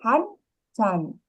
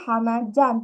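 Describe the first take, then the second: First: The number is shortened to one syllable, 'han'. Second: The number keeps both syllables, 'hana'. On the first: The speaker calls it right. "tetapi kopi Hanjan" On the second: The speaker calls it wrong. "Bukan kopi Hanajan"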